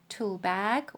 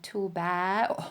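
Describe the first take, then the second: First: The word ends in a hard g sound. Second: The word ends with no final consonant. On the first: "quite a few people will be pronouncing it Tulbag" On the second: "or Tulba"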